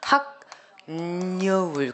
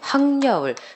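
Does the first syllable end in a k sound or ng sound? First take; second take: k sound; ng sound. First: An n is added, and the first syllable keeps k. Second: An n is added, and k becomes ng. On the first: "니은이 첨가되죠. 그럼 얘 처음 발음하면" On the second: "민낯 칠해하고 잠이 만났어... 한 번 더 발음하시면"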